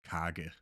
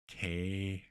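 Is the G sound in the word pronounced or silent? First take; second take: pronounced; silent. First: The G sound in the middle is pronounced. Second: The G sound in the middle is silent. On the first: The speaker calls it wrong. "and not kage" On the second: The speaker calls it right. "the G is not really pronounced"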